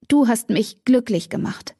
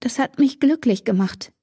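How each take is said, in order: First: „du“ vorne kräftig betont, Satz fällt ab; Betonung auf du. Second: „mich“ hoch und gedehnt betont, bewegt; Betonung auf mich. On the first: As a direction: das „du“ hervorheben. (Cat sagt Damon, er habe sie glücklich gemacht, „du“ betont) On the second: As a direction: das Wort „mich“ tragen, den Satz höher. (Cat gesteht Damon ihre Gefühle, „mich“ betont) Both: Acted. Cat gesteht unter Tränen.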